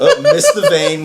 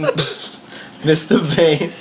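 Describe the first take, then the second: First: Very high laughing oops; laughing mock oops. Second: Drawn-out very slow repeat; slow deadpan repeat. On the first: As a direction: squeal it out through laughter. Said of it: "mock vet goof". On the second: Retold or imitated. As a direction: stretch it out slow and flat-toned. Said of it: "repeat of the goof".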